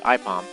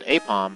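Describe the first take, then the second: First: The first vowel is an 'eye' sound. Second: The first vowel is not an 'eye' sound. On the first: The speaker calls it right. "A I is pronounced I, so it's Ipom" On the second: The speaker calls it wrong. "You might think that's supposed to be said Apom"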